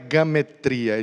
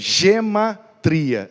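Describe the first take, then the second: First: The word begins with the syllable ga. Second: The word begins with the syllable ge. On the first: The speaker calls it wrong. "não é gametria" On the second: The speaker calls it right. "é gematria, é isso mesmo"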